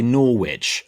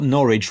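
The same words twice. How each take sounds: First: "Norwich" said Nor-wich with the w sounded, like sandwich; "Norwich" mispronounced letter by letter, Nor-WICH; "Norwich" said as an outsider would, w fully voiced; wrong spelled-out Norwich. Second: "Norwich" said the local way as Norritch, silent w; "Norwich" rhymes with porridge, no w sound; "Norwich" said NOR-itch as locals do; correct local Norwich. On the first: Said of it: "They didn't say Norwich". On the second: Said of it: "Greg got Norwich right". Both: Shown as a demonstration.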